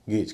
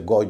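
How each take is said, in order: First: The vowel is an 'ay' sound. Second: The vowel is an 'ow' sound. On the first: The speaker calls it right. "गेज कहेंगे" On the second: The speaker calls it wrong. "इसे गौज नहीं कहेंगे"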